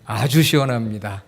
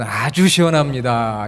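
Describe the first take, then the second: First: Said in the usual way. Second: Slow Seoul-style "아주 시원합니다", 아주 drawn out; Seoul dialect. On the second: Shown as a demonstration. Pastor to congregation, Seoul-dialect demo, slow and drawn out. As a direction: pastor demos how Seoul people praise the cool air, slowly. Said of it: "서울, 경기, 수도권에 계신 분들은".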